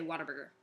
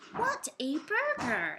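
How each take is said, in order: First: The words run together quickly, like water burger. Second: Each word is said slowly and separately. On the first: The speaker calls it right. "like water burger, but you just say it so fast" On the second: The speaker calls it wrong. "the actual time to say"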